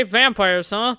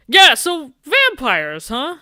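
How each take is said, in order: First: Said in the usual way. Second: Higher and louder, slow, teasing drawl; mocking drawn-out repeat. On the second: Teasing the nervous date about vampires, slow and mocking. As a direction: stretch it out to needle him.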